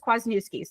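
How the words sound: The name is pronounced with American English sounds. "if you're American or, you know, you don't speak Polish"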